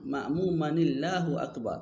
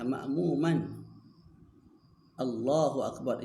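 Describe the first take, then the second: First: Ma'muman runs straight into Allah with -ni-. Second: A glottal stop separates ma'muman from Allah. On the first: "kita gugurkan hamzah Allah" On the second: "itu asalnya"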